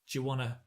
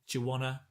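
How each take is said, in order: Both takes have the same delivery.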